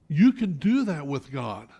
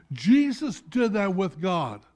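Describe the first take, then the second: First: "You" pressed hard and loud, rest of the line following; stress on YOU. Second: "Jesus" hit hard and louder, slow fall after; stress on JESUS. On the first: Preacher to congregation, "You" leaned on hard. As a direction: lean on the word "You" as the one who may do it. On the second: Preacher naming Jesus as the example, "Jesus" stressed slowly. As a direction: weigh down on "Jesus". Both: Shown as a demonstration.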